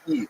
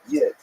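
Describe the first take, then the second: First: It begins directly with the vowel, no Y glide. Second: It begins with a Y glide and short i. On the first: The speaker is from the Eastern Ukrainian dialect area. "if you lived in Eastern Ukraine, you'd say Eid, like Yiddish, like just without the Y" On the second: The speaker is from the Lithuanian dialect area. "that's a Lithuanian pronunciation"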